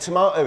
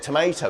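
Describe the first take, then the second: First: It is said with a British pronunciation. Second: It is said with an American pronunciation. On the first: This is the speaker's own habitual way. "if you notice me saying tomato" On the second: This is the way the local audience expects. "instead of tomato"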